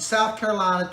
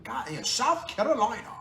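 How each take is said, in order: First: Said in the usual way. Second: "South Carolina" in a light put-on Southern accent; half-hearted Southern accent on "South Carolina"; mock Southern accent. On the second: Vlogger trying a Southern accent for South Carolina viewers. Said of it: "do I need to fake a Southern accent?".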